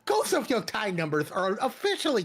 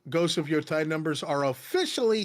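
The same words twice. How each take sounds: First: It is read in a put-on imitating voice. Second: It is read in the speaker's normal voice.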